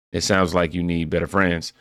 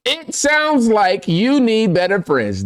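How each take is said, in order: First: Said in the usual way. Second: Very high, slow and deliberate; exaggerated rereading. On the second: Real, not acted. Host rereading a viewer comment, exaggerated high and slow. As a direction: spell it out in a high, drawn-out voice.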